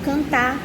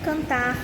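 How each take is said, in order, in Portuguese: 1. O R final é apagado. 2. O R final é pronunciado. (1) "são pronunciadas como cantar" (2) "O som representado pela letra R no final de palavras é apagado"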